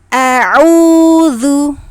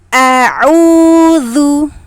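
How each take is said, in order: No difference in how they are said.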